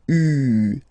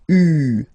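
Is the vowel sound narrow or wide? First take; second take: narrow; narrow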